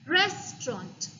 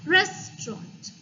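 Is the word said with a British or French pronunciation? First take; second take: British; British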